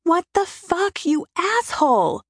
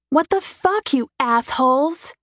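First: High, slow, anguished scream at the sky; screaming at God. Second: Shrill furious scream, much higher; screaming at speeding bikers. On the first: Standing in the rain screaming her rage up at God. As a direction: howl it up to heaven. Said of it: "I scream it to God". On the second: Woman alone on a mountain road screaming at bikers, furious. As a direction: shriek it out in rage. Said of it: "I scream it". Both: A narrator's reading.

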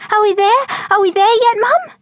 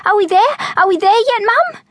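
First: Put-on much higher, eager kid squeal; excited. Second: Much higher copycat squeal of excitement; excited mimicry. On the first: Excited girl pestering her mum on arrival. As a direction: bounce with impatience, voice way up. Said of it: "in excitement". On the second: Excited boy copying his sister to their mum. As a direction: echo your sister, just as thrilled. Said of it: "Robert mimicked his sister, equally excited". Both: A narrator's reading.

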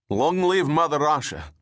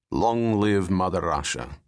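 First: The soldier roars it out with pride; fervent cheer. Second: Said in the usual way. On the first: Acted. Soldier cheers his motherland. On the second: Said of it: "the tall man said".

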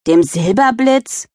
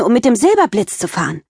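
First: Slow, sneering question; mild teenage scoff; scornful snort. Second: Excited. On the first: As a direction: scoff at her sister's coaster. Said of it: "schnaubte Tiffany". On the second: Girl thrilled about roller coaster. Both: Acted.

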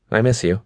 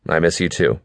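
First: Higher, fond woman's voice; tender girlfriend. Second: Said in the usual way. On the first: A narrator's reading. Girlfriend misses faraway boyfriend, higher tender voice. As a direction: say it fondly, pitched up.

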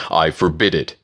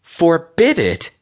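First: Level, matter-of-fact prohibition; firm interruption. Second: High, slow, indignant echo; sharp. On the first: Octavius interrupting Aurora's offer to go, firm. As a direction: cut in and forbid it evenly. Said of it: "Octavius interrupted". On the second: Aurora challenging Octavius's order, sharp. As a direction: throw it back sharply, pitched way up. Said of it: "Aurora said sharply". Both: A narrator's reading.

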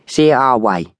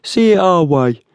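First: Moderately raised pitch, phony American youth; oily young tough, voice lifted; oily youth chiming in. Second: Very high, insistent urging; pushy tough leaning on the victim. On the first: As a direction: chime in as a pushy Americanized Cockney. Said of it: "chimed in the youth with the oily hair". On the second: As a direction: press hard as the tall man, pitched well up. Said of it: "urged the tall man". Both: A narrator's reading.

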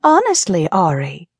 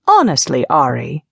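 First: High-pitched mocking British echo; mimicked British accent. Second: Exasperated British reproach; exasperated Patience. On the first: Ariana repeats Patience's words, mimicking her British accent. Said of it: "mimicking Patience's British accent perfectly". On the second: Patience chides Ari after the prank, exasperated. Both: A narrator's reading.

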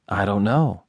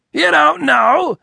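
First: Said in the usual way. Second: Very high, loud, stretched-out echo; outraged disbelief. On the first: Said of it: "he confessed". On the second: A narrator's reading. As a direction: throw it back in scornful amazement. Boss incredulously echoes the confession.

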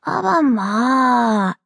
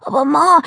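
First: Very slow, drawn-out "Aber Ma"; exaggerated patience. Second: High, wailing "Aber Ma"; whining. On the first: Daughter explaining to her furious mother, patronisingly patient. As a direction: stretch it out as if to a small child. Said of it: "erklärte Delly so geduldig". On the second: Acted. Daughter with soap foam at her mouth, whining. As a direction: complain to Mum like a wronged child. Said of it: "jammerte sie".

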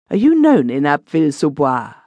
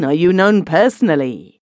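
First: "you" leaned on, the rest falling away; stress on you. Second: "known" leaned on, "you" left light; stress on known. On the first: Robichon asking the stranger, stress on "you". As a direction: hit "you" hard in "Are you known". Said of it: "Bah, I mean, are you known personally?". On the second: Robichon correcting himself, stress on "known". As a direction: hit "known" in "are you known personally". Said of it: "Bah, I mean". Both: Acted.

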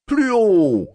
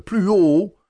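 First: Crié plus haut et plus fort, ton qui tombe sur «Plus haut»; le maître crie son ordre à l'élève; cri du maître. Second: «plus haut» crié plus haut et plus fort, ton montant à la fin; cri répété. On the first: (le maître crie à l'élève d'une voix plus haute et plus forte) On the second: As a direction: insiste en criant. (le maître répète son ordre en criant, voix montante) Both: A narrator's reading. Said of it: "cria le maître".

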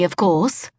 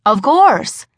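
First: Haughty fake British, rising; smug put-on British tone; phony British accent. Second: Quick eager lie, falling; bluffing with forced confidence; nervous fib. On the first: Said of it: "a decidedly phony British accent". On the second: Acted. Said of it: "I lied again".

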